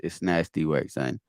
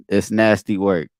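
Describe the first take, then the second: First: Low, drawn Quiddy catchphrase. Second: Lightly put-on Quiddy catchphrase, louder. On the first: Pretend. Reacting to the same bar in a lightly voiced Quiddy. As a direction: lean into it like Quiddy. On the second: Reacting to a battle rap line, a hint of Quiddy's voice. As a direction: drop the line the way Quiddy would. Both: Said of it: "Quiddy voice".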